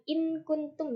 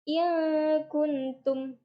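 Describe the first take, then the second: First: The n is pronounced clearly and briefly. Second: The n is hidden in a held nasal hum. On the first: The speaker calls it wrong. "bukan in kuntum ya, beda" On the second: The speaker calls it right. "seperti disamarkan"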